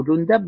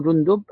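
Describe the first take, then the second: First: "جندب" with the dal voweled a, jun-dab; "جندب" pronounced jundab, a on the dal; Jundab with fatha. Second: "جندب" with the dal voweled u, jun-dub; "جندب" pronounced jundub, u on the dal; Jundub with damma. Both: Shown as a demonstration. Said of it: "بضم الجيم وضم الدال وفتحها".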